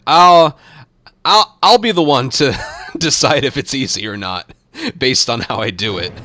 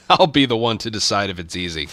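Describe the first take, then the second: First: Loud, high, playfully offended; mock indignant. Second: Amused, laughing it off. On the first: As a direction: push back in mock outrage. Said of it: "indignant mock protest at "super easy". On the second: Pretend. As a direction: repeat it softly while chuckling. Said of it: "repeats the line laughing, softer".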